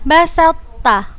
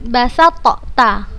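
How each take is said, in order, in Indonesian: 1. Bunyi t menyatu sepenuhnya dengan ta. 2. Bunyi t dilafalkan terpisah sebelum ta. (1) "Ustazah bacanya basatta" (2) "bukan basatta"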